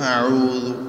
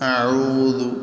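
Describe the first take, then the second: The two takes are said the same way.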